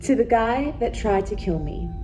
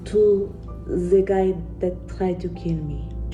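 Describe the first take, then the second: First: It is said in a put-on British accent. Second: It is said in the speaker's ordinary accent.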